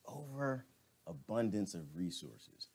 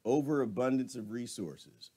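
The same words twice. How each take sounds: First: Overabundance of resources said slow and softer, savoring it; slow, quiet repeat. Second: Said in the usual way. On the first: Shown as a demonstration. Vlogger repeating a viewer's comment back, slow and soft. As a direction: repeat the phrase slowly to let it sink in. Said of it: "repeated back slowly". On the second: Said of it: "reading a comment aloud".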